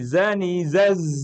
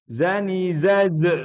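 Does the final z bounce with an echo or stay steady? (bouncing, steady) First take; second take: steady; bouncing. First: The final z is held without a bounce. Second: The final z is released with a bounce. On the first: The speaker calls it right. "Tapi zani zaz aja. Tidak boleh dipantulkan" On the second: The speaker calls it wrong. "Jangan zani zaz, nggak boleh"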